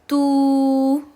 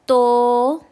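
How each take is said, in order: First: The vowel is a long 'oo' with rounded lips. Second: The vowel is an 'o' with less rounded lips. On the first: The speaker calls it right. "मारूफ वॉइस ... अच्छे से होंठ गोल कर कर पढ़ना है" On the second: The speaker calls it wrong. "मजहूल वॉइस ... ये रॉन्ग है"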